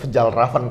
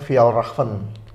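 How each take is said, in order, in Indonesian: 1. Dibaca huruf per huruf, sesuai ejaannya. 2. Diucapkan dengan bunyi Swedia, J seperti Y. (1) "nyebut Fjällräven karena memang tulisannya seperti itu" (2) "itu sebenarnya dibacanya Fjällräven"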